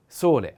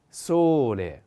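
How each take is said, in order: First: Said in the usual way. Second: Sole slowly, with a long stressed o. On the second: Shown as a demonstration. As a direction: draw out the o of sole for a learner. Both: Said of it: "The accent is on o".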